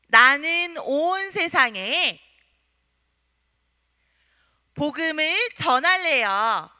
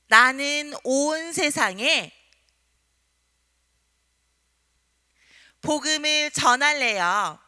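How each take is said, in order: First: It is shouted loudly and vigorously. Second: It is said at normal loudness.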